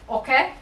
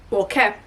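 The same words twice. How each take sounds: First: Said in the usual way. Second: Okay with a Canadian vowel, oh-kay; Canadian-sounding okay. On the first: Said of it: "sounded Canadian". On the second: Real, not acted. Vlogger getting the vacuum out, accidental Canadian okay. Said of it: "I sounded Canadian there".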